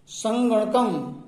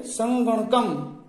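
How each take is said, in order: First: संगणकम said slowly, syllable by syllable. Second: संगणकम said slowly again, syllable by syllable; slow repeat. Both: Shown as a demonstration. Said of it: "फिर से बोलिए".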